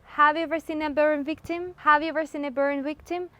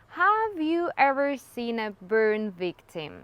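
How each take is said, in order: First: Higher, quicker 'Have you ever seen a burn victim' in linked chunks; grouped words. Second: Slow 'have you ever seen a burn victim', word by word; separated words. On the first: Teacher drilling chunks, linked and raised. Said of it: "speaking in chunks". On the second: Teacher showing how not to say it, slow separated words. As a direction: keep each word of 'have you ever seen' apart. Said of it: "Isn't spoken as six separated words". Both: Shown as a demonstration.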